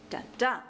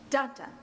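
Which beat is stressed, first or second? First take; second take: second; first. First: The stress is on the second beat. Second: The stress is on the first beat. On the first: "weak stress followed by a strong stress is an iamb" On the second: "Strong stress followed by a weak stress is a trochee"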